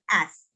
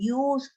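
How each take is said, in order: First: The word starts with a short plain vowel. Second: The word starts with a y sound, like 'use'. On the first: The speaker calls it right. "así sencillo" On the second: The speaker calls it wrong. "no vayan a decir use"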